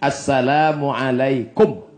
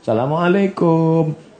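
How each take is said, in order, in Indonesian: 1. Vokalnya dibaca pendek. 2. Vokalnya dipanjangkan.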